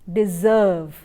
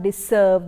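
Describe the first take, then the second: First: The middle consonant is a buzzing z sound. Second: The middle consonant is a hissing s sound. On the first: The speaker calls it right. "the sound is z" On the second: The speaker calls it wrong. "it is not deserve"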